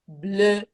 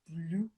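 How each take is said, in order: First: The vowel is a rounded French 'eu'. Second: The vowel sounds like English 'oo'. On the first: The speaker calls it right. "il faut le prononcer E" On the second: The speaker calls it wrong. "beaucoup d'élèves prononcent ça bleu, mais ça c'est anglais"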